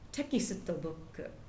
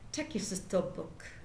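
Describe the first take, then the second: No difference in how they are said.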